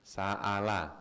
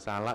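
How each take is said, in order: First: A glottal catch separates the middle syllables. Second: The middle runs smoothly with no glottal catch. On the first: The speaker calls it right. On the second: The speaker calls it wrong. "Bukan salah ya Pak"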